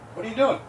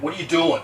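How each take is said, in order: First: It is asked in a curious, neutral tone. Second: It is asked in a confrontational tone.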